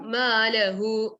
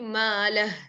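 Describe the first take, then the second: First: The word ends with a long u vowel. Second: The word ends on a bare h sound. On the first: The speaker calls it wrong. "if you're stopping, you should not do malahu. It's wrong" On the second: The speaker calls it right. "It should be malah. Like that"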